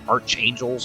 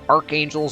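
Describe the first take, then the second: First: The first syllable sounds like 'arch' with a ch. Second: The first syllable sounds like 'ark' with a k. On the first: The speaker calls it wrong. "I say archangels because there's an H" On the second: The speaker calls it right. "but it's archangels and it's right"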